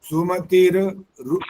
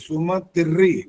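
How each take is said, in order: First: The r is said separately, broken off. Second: The r is joined as a double r. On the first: The speaker calls it wrong. "ऐसे नहीं बोल सकते" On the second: The speaker calls it right. "सुमतिर्री ऐसा बोलना होता है"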